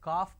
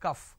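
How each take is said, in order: First: The word is said with a long 'calf' vowel. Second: The word is said with a short 'cuff' vowel. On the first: The speaker calls it wrong. "it's not calf" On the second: The speaker calls it right. "it is cuff"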